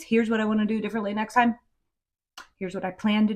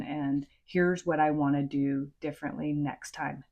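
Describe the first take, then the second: First: "Here's what I wanna do differently next time" pressed out faster, pitched a bit up; stressed key phrase. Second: Said in the usual way. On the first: Shown as a demonstration. Parent coach stressing the key apology phrase to listeners. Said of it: "is vital". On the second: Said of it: "That piece ... is vital".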